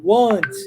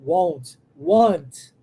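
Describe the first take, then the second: First: Want with a short open a, like Portuguese "uó"; open vowel want. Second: Want said with a low, open o, like "wót"; open vowel want. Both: Shown as a demonstration. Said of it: "É, mas é aberto".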